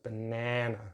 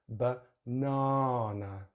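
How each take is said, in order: First: The middle vowel is a short 'a' as in 'nan'. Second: The middle vowel is a long open 'ah'. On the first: "slightly different short vowel sound in the middle. It's like nan" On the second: "the long vowel sound, ah"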